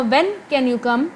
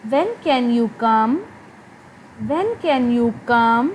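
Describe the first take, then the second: First: Said in the usual way. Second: Very slow, tone rising at the end of "When can you come?"; polite rising question. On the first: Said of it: "मैं normally पूछ रही हूँ". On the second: Shown as a demonstration. Teacher demonstrating a polite question, slow with a rise. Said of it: "politely मेरी tone rise हो रही है".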